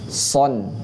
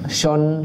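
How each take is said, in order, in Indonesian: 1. Konsonan pertama adalah bunyi s. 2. Konsonan pertama adalah bunyi sh. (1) "yang benar adalah so... mendesisnya lebih dekat ke sin" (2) "Jangan shon, shin, salah"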